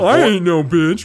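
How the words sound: It is said in a put-on imitating voice.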